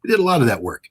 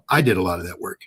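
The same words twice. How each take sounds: First: Said in the usual way. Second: I pressed as the one who did it, the rest lower; stress on I. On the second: Real, not acted. Correcting himself, stressing I did the covert work. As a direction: put the weight on I to claim the work.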